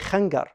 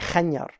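First: The middle consonant sounds like a hard g. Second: The middle consonant sounds like y. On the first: This is the Egyptian dialect form. "If you go to Egypt, they'll say khangar" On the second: This is the eastern Arabian dialect form. "they'll say khanyar"

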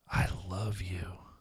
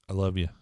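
First: It is said warmly, with deep feeling. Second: It is said coldly, without feeling.

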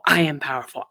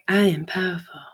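First: It is said with building, forceful energy. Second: It is said flatly, without energy.

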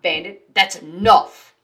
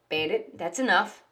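First: It is said harshly and loudly. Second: It is said calmly and quietly.

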